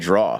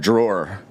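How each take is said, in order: First: It ends without an R sound. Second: It ends with an R sound.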